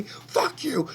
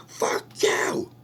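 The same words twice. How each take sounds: First: High, loud yelled "Fuck you"; screaming fuck you. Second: "Fuck you" whispered through a sob; sobbing whisper. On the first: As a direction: spit "Fuck you" out as a furious yell. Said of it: "starts screaming at them". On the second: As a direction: breathe "Fuck you" out while crying. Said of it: "goes ballistic". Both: Retold or imitated.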